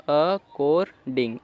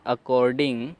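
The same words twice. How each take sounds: First: according stretched slowly, every syllable clear; slow demo reading. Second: Said in the usual way. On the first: Shown as a demonstration. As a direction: model according slowly for the learners. (धीरे-धीरे according)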